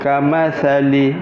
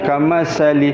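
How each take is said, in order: First: The middle consonant is a 'th' sound. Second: The middle consonant is an 's' sound. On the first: The speaker calls it right. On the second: The speaker calls it wrong. "bukan kamasali"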